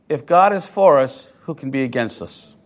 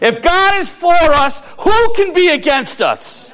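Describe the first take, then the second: First: It is said at normal volume. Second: It is said loudly and excitedly.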